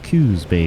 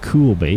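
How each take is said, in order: First: The first word has no L sound. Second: The first word has an L sound. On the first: The speaker calls it right. "Get that right" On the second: The speaker calls it wrong. "I almost said Cools Bay"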